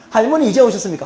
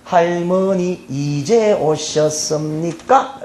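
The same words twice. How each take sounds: First: Said in the usual way. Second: Very slow, drawn-out polite Seoul question; slow Seoul speech. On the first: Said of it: "여러분들이 그렇게 이야기하시나?". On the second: Acted. Seoul people greeting grandma coming home, slow Seoul speech. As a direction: stretch each syllable in careful Seoul politeness. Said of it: "서울에 있는 사람들은".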